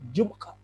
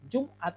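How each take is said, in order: First: The word has a catch in the throat. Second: The word flows without a throat catch. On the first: "Jadi ada penekanan di tenggorokan" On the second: "Jumat dalam bahasa Indonesia"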